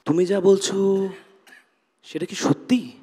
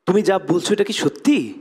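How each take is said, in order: First: It is said in a confused tone. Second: It is said in a surprised tone.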